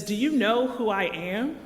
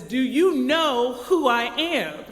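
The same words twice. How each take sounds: First: A mildly raised, demanding question; mock loud demand with a rise at the end; impatient traveler, lightly raised voice. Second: Slow, loud and higher, each word pressed; angry traveler raising his voice, dragging it out; furious passenger almost shouting at the gate; louder demand. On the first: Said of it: "using a loud voice". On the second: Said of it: "louder this sa-, time". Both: A narrator's reading.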